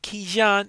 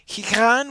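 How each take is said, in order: First: The middle consonant is a j sound. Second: The middle consonant is not a j sound. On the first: "they seem to be pronouncing that with a j sound" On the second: "I am used to a different pronunciation for the gh"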